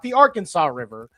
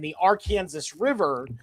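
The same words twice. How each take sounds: First: It is said the usual way elsewhere. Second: It is said the Kansas local way.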